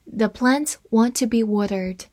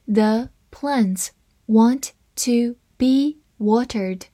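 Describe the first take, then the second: First: Said in the usual way. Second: Slow, careful read of each word. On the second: Shown as a demonstration. Teacher reading the second sentence slowly for learners. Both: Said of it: "我们分别来慢读一遍".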